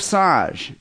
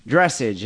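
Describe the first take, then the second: First: "dressage" said French-style, druh-SAHZH; correct pronunciation. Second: "dressage" said like DRESS-idge; anglicized "dressage", rhyming with message; mistaken pronunciation. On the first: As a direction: stretch the second syllable of "dressage" into -sahzh. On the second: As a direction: stress the first syllable of "dressage", ending in -idge. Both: Shown as a demonstration. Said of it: "as we mistakenly pronounce it".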